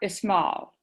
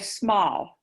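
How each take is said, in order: First: An e vowel sound comes before the s. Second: The word starts directly with the s sound. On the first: The speaker calls it wrong. "it sounds like you put an E in front of the S's" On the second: The speaker calls it right. "you just say small"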